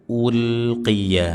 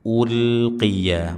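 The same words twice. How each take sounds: No difference in how they are said.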